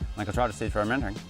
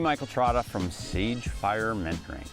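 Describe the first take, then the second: First: It is said fast. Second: It is said slowly.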